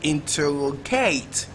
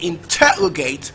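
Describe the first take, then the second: First: The stress is on the fourth syllable. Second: The stress is on the second syllable.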